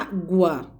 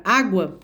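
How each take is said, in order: First: "Água" split into "Á" and "gua", the U sounded; syllable by syllable. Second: Said in the usual way. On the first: Shown as a demonstration. Teacher showing pupils the U is read, "Água" broken into syllables. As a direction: say "Água" in two separate beats, letting the U be heard. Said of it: "eu leio a letra G". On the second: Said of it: "quando eu leio a palavra água".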